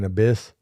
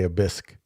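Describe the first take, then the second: First: The word ends with a plain s sound. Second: The word ends with an added k sound. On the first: The speaker calls it right. "instead of saying abyss" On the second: The speaker calls it wrong. "I say abisque"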